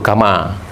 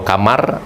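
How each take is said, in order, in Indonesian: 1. Bunyi r di akhir dihilangkan. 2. Bunyi r di akhir dilafalkan.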